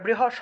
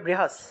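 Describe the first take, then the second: First: The hissing sound is said like sh. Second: The hissing sound is said like plain s. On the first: The speaker calls it wrong. "এটা বৃহস হবে না" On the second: The speaker calls it right. "এটা হবে বৃহস"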